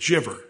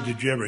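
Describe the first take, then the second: First: The words are squeezed into one short word. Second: Each word is said separately and in full. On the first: "So that's a shortcut for did you ever" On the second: "they don't say"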